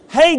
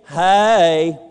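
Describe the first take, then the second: First: Hey is said short, in one syllable. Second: Hey is drawn out Georgia-style into two syllables.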